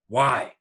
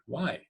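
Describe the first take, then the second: First: The word sounds angry. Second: The word sounds curious and interested. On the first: "With anger" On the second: "With curiosity"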